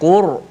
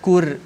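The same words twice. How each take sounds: First: The R is pronounced heavy and thick. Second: The R is pronounced light and thin. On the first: The speaker calls it right. "ra tebal macam mana?" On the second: The speaker calls it wrong. "jangan kita baca Quran, Qur, tak boleh. Kalau Qur jadi nipis"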